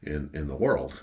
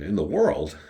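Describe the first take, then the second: First: Said in the usual way. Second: Punchier echo of a boast; questioning echo. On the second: Retold or imitated. Customer questions the waiter's best-sandwich boast, questioning echo. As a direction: throw the claim back, challenging it.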